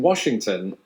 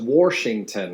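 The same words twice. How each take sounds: First: It is said in a standard accent. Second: It is said in an Indiana/Ohio accent. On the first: "pronouncing Washington as" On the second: "It's like Indiana and Ohio"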